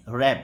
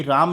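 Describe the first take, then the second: First: "रैम" with a short English a; correct pronunciation. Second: "राम" with a long open aa; wrong pronunciation. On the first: Teacher modelling the word for male sheep, clearly pronounced "रैम". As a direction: say "रैम" with the vowel of cat. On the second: Teacher warning students off a misreading, mispronounced "राम" with long aa. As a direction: say "राम" with the vowel of father. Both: Shown as a demonstration. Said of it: "ये राम नहीं है".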